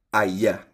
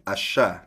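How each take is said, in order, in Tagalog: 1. Binibigkas ito sa standard Spanish na accent. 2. Binibigkas ito sa Argentine na accent. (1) "academic Spanish, yung standard" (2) "like dito sa Argentina"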